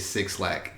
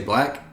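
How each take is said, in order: First: The name is said as 'six lack'. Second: The name is said as one word, 'black'. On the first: The speaker calls it wrong. "or did you ever at one time say six lack?" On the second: The speaker calls it right.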